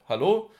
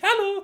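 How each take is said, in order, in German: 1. Die Stimme ist tief und fest. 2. Die Stimme ist hoch und dünn. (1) "hier, ich bin der Chef" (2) "Und möchtest natürlich nicht"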